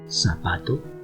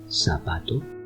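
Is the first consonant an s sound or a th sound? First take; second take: s sound; s sound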